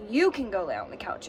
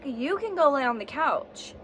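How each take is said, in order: First: "you" stressed, thrown back at her. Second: Said in the usual way. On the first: Retold or imitated. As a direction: lean on "you" to turn it around. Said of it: "is his response to me". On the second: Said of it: "I'm like".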